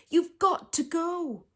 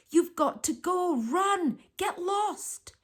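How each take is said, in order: First: Slow, higher, pressing plea; desperate plea. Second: Urgent whisper. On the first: Martine still begging Jemmy to go, slow high plea. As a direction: draw the words out, begging. Pleading with the giraffe. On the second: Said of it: "Martine whispered". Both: A narrator's reading.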